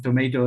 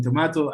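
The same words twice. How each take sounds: First: Tomato with a long "ay" in the middle; American pronunciation. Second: Tomato with a broad "ah" in the middle; British pronunciation. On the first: Teacher citing the video's dispute, tomato said "to-MAY-to". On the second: Teacher citing the video's dispute, tomato said "to-MAH-to". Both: Shown as a demonstration. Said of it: "the pronunciation of tomato and tomato".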